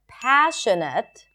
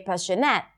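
First: The primary stress falls on the usual syllable. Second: The primary stress falls on an unexpected syllable. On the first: The speaker calls it right. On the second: The speaker calls it wrong.

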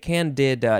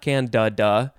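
First: The middle syllable has a clear 'ih' vowel. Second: The middle syllable has a reduced 'uh' vowel. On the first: The speaker calls it right. "I want to put a little more I sound in the can-de part" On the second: The speaker calls it wrong. "not can-da-da"

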